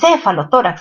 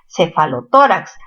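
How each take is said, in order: First: The stress falls before the syllable 'to'. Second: The stress falls on the syllable 'to'. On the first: The speaker calls it wrong. "no es cefalotórax" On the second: The speaker calls it right. "La mayor fuerza está en to"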